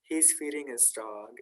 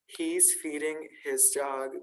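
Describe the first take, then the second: First: The h in his is dropped. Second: The h in his is clearly pronounced.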